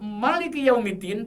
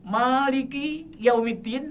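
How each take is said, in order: First: The vowel in 'ma' is kept short. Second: The vowel in 'ma' is held long. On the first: It means the king of the Day of Judgment. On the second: It means the owner of the Day of Judgment. "ma panjang"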